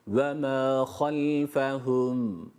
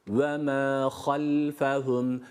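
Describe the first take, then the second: Both takes have the same delivery.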